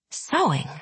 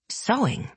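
First: Disbelieving, hushed; incredulous whisper. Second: Incredulous. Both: A narrator's reading. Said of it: "Nina had whispered incredulously".

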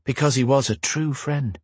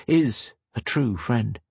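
First: Said in the usual way. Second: Is said slowly and softly with weight; stress on Is. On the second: Shown as a demonstration. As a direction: lean on Is, slow correction.

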